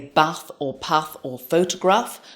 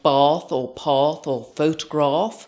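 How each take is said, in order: First: The vowels have a northern English sound. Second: The vowels have a southern London sound. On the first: This is the speaker's own natural way of speaking. "I do have some northern vowels" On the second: This is how someone from London would say it. "That's how my husband, who was born and bred in London, would say those words"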